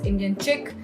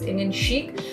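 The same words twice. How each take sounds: First: Chic is said like 'chick'. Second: Chic is said like 'sheek'. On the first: This is how other people often said the name. The speaker calls it wrong. "often it was being pronounced as Indian chic" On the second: This is the intended name of the blog. The speaker calls it right. "that is how it was Indian chic"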